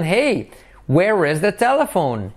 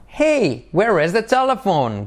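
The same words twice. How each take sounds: First: "telephone" falling at the end; question intonation. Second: "Hey" pitched much higher, "telephone" falling; exaggerated intonation. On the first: Teacher modelling the question's tune. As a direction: lift "Hey", then drop on "telephone". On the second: Teacher exaggerating the question's tune. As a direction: call out "Hey" high, then fall. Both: Shown as a demonstration. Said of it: "Entonación".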